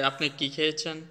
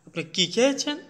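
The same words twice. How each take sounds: First: Said in the usual way. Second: High, sharply rising end on খেয়েছেন; খেয়েছেন climbing high at the end; changed questioning tone. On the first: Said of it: "আমরা যখন হচ্ছে tone change করে". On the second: Shown as a demonstration. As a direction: lift খেয়েছেন steeply into a surprised question. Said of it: "emotion বা attitude".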